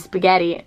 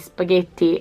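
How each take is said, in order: First: It is said with an American English pronunciation. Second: It is said with an Italian pronunciation. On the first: "I just got used to say spaghetti" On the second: "We say spaghetti, and that's the way you, you're supposed to"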